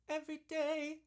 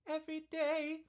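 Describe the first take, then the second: No difference in how they are said.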